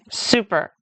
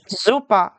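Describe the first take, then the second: First: Said in the usual way. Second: "Super" the German way, S voiced as Z, ending in A; German "Super" with a buzzing Z start and open A ending; German pronunciation. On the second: Shown as a demonstration. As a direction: say "Super" as ZOO-pah. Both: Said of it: "S sounds like a Z in German".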